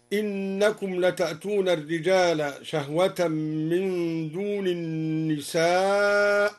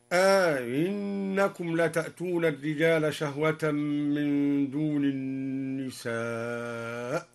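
First: Said in the usual way. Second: أئنكم said "aa-innakum", long a and softened second hamza; two hamzas, second eased. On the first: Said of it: "قوله تعالى". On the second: Shown as a demonstration. Teacher shows the question reading, أئنكم with stretched opening. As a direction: draw out the first a of أئنكم, glide into the i. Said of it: "على الاستفهام أي بهمزتين".

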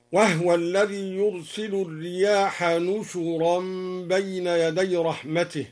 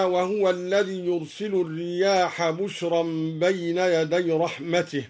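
First: نشرا as "nushuran" in the recited verse; damma on nun and shin. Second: Said in the usual way. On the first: Shown as a demonstration. Teacher recites al-Duri's reading, نشرا as "nushuran". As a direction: recite with n, not b, in نشرا, u on both syllables. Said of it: "وضم الشين أيضًا هكذا". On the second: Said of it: "قوله تعالى".

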